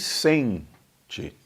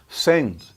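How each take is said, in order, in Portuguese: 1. Sotaque brasileiro, com a vogal final claramente ouvida. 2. Sotaque europeu, com a vogal final quase apagada. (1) "nós ouvimos porque falamos bem português" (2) "Imagine em português de Portugal, como era o de Camões"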